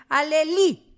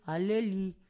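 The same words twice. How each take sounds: First: "Aleli" loud and high, stressed on the final I. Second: "Aleli" said lower, without the punched final I; mistaken name reading. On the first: Acted. Host reads out a listener's name correction, stressing the I in "Aleli". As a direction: punch the last I of "Aleli". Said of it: "con acento en la I". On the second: Shown as a demonstration. Host mocks how listener expected them to say it, "Aleli" low and unpunched. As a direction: drop "Aleli" low, no big accent on the I. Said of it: "qué pensabas que íbamos a decir".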